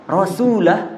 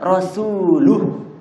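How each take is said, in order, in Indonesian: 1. Suku kata terakhir memakai vokal 'a'. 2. Suku kata terakhir memakai vokal 'u'. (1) "Cuman beda di lah dengan lu" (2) "Cuman beda di lah dengan lu"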